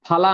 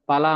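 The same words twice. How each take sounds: First: The first consonant is said with aspiration. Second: The first consonant is said without aspiration. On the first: It means fruit. "ಫಲ ಅಂದ್ರೆ ಹಣ್ಣು" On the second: It means meat. "ಫಲ ಅಂದ್ರೆ ಮಾಂಸ"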